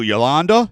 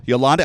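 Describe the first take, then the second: First: Yolanda with a short ya and a rising tune. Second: Yolanda with a full yo and a light rise. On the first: Testing another way to say Yolanda, rising. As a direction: try Yolanda as a question, first vowel short. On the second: Testing a whiter Yolanda, quick rise. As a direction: try Yolanda again with a round yo. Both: Shown as a demonstration.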